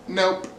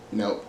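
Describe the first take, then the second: First: High-pitched short refusal; imitated refusal, pitched up; retold refusal. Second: Low, soft, short refusal; imitated refusal, pitched down; retold refusal. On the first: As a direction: lift the voice high for a mock-stubborn no. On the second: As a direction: drop the voice for a quiet, mock-stubborn no. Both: Retold refusal, said two ways.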